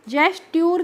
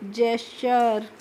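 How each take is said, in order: First: The ending is pronounced with a 'tyoor' sound. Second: The ending is pronounced with a 'cher' sound. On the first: The speaker calls it wrong. "जेस्ट्यूर करके नहीं पढ़ते हैं" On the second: The speaker calls it right. "T U R E को हम चर करके पढ़ते हैं"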